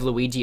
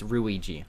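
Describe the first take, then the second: First: The name begins with an L sound. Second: The name begins with an R sound. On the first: "instead of Luigi" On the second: "they don't have the sound with the letter L. It's an R"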